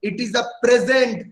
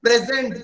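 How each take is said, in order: First: It is a present, slow, leaning hard on present; stress on present. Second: Said in the usual way. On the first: Shown as a demonstration. Teacher tells students to say the word with force, stressed. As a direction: press the word present firmly. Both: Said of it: "जोर लगा के word बोलो".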